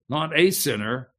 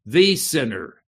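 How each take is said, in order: First: Said in the usual way. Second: "the" hit hard and held, "the sinner"; preacher leans on "the" in "the sinner"; stress on THE. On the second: Shown as a demonstration. Stress on "the" in "the sinner". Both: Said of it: "the definite article".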